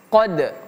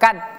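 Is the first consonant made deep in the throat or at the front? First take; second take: deep; front. First: The first consonant is a deep back q. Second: The first consonant is a plain front k. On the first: The speaker calls it right. "tapi qad" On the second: The speaker calls it wrong. "Ini huruf qaf tidak seperti huruf K, jadi jangan sampai kita baca kad"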